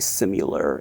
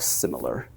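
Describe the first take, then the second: First: It is said with a regional Missouri pronunciation. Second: It is said with the standard pronunciation. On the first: "every time I say similar" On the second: "instead of similar"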